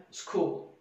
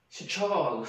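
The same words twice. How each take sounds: First: School said the English way, one syllable; English pronunciation. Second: Secol read letter by letter, Indonesian style, a bit louder; Indonesian misreading. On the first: Teacher modelling the correct English school. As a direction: say school like a native speaker. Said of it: "dalam bahasa Inggris ... kita bacanya". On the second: Teacher mimicking how Indonesians read school. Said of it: "Kalau orang Indonesia kan membacanya ini". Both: Shown as a demonstration.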